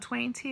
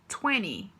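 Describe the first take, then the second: First: The second T sound is clearly pronounced. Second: The second T sound is dropped. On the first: This is how it is said in British English. "talvez no inglês britânico você ouça alguém falar twenty" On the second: This is how it is said in American English. "no inglês americano ... é twenty. Você vai tirar o T"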